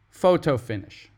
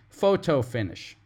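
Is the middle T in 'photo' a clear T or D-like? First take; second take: clear T; clear T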